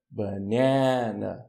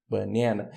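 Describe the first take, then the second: First: "Banana" very slowly, middle syllable stretched long; stressed syllable drawn out. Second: Said in the usual way. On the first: Shown as a demonstration. ("Banana" bem devagar, alongando a sílaba tônica) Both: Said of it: "Onde tá a sílaba tônica?".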